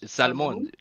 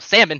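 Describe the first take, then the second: First: The word is said with Spanish pronunciation. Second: The word is said with English pronunciation. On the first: "in Spanish you say salmon" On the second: "So you don't go salmon"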